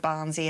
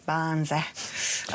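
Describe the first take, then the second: First: Said in the usual way. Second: "Barnesy" stretched long and slow; drawn-out nickname. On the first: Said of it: "need to say it like that". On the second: Real, not acted. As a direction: draw out both syllables of "Barnesy". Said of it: "I always feel the need to say it like that".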